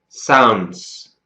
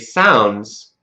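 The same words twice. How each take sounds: First: The ending has an s sound, split in two. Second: The ending has a z sound, one syllable. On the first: The speaker calls it wrong. "Let's try saying sounds the way it looks" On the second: The speaker calls it right. "So we say sounds because it's the easy way"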